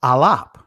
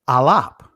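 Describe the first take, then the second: First: It is said in the ancient Hebrew pronunciation. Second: It is said in the ancient Hebrew pronunciation.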